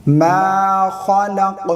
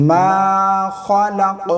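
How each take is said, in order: Both takes have the same delivery.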